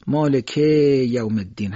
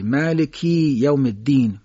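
First: مالکه with the final e held long before یوم الدین; stretched Persian e. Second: مالکی with final i drawn out before یوم الدین, slow; Arabic long i. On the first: Teacher proving a point to listeners, stretched Persian e. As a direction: slowly drag the Persian e ending مالکه. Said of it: "هر چقدر ا رو بکشید". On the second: Teacher showing a meaning-changing error, long i. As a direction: slowly stretch the ki of مالکی into long i. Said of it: "تبدیل به یاء مدی میشه". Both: Shown as a demonstration.

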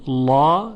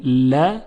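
First: "لا" with a heavy, dark l and back vowel; full, velarized lam on "لا"; thick lam. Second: "ل" light and thin, with a front vowel; thin lam. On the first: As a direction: say "لا" thick, like "law". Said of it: "چون لا تفخیم شده". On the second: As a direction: say "ل" as a light, forward "la". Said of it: "ترقیق شده". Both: Shown as a demonstration.

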